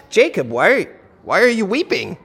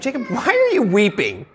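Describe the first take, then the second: First: Asking to find out why; sincere question. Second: Pointed rhetorical why; mild challenge, not wanting an answer; implied reproach. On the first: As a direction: ask it wanting an answer. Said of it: "I want to know why he's weeping". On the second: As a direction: question it as if he should not be weeping. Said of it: "I'm implying that Jacob should not be weeping". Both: Shown as a demonstration.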